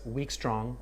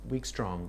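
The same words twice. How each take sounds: First: "weak" light, "strong" landed heavier; weak strong stress demo. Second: "weak" light, "strong" heavier, falling; weak strong stress demo. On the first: Teacher demonstrating "weak, strong" to students, with the stress on "strong". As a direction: tap out "weak, strong" as an iamb. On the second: Teacher repeating "weak, strong" to students, the stress falling on "strong". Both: Shown as a demonstration. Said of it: "the stress".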